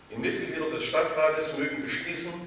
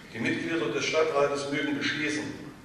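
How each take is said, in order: No difference in how they are said.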